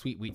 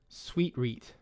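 First: It is said quickly, like a tongue twister. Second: It is said at a normal, slow pace.

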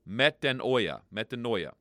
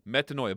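First: The word is stretched with an extra syllable. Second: The word is said compactly without extra syllables. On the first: The speaker calls it wrong. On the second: The speaker calls it right.

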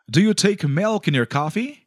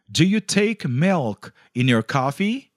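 First: It is said at normal speed. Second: It is said slowly.

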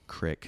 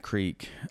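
First: The word has a short 'i' vowel. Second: The word has a long 'ee' vowel.

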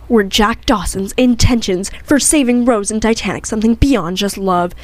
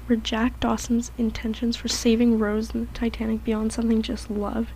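First: It is read loudly. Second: It is read quietly.

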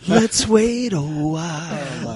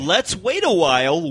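First: It is said in a sultry voice. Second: It is said in a plain voice.

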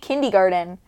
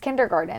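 First: The R sound in the middle is dropped. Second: The R sound in the middle is pronounced. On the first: The speaker calls it wrong. "You say kindergarten" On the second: The speaker calls it right. "It's kindergarten. There's an R there"

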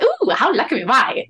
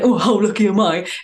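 First: It is said in a happy, delighted tone. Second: It is said in a gloomy, negative tone. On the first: The speaker calls it right. "That is how you hear it. That is how you say it" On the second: The speaker calls it wrong. "You can't say it in a bad way. Like, you can't be like"

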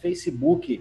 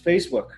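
First: The stress is on the second syllable. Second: The stress is on the first syllable. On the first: The speaker calls it wrong. "That's Facebook with a stress on the U" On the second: The speaker calls it right. "The name is Facebook"

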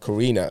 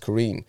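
First: The name ends with an extra final vowel. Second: The name ends on the n sound. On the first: The speaker calls it wrong. "I've been saying Corinna" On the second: The speaker calls it right. "No, it's Corinne"

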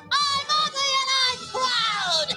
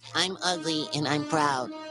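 First: It is shouted very loudly. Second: It is said at a normal, quieter volume.

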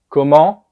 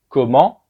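Both takes have the same delivery.

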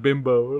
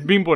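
First: The word has an English pronunciation. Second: The word has a Spanish pronunciation. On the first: It is the English slang word. The speaker calls it wrong. "not Bimbo" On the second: It names the Mexican bread company. The speaker calls it right. "it's Bimbo"

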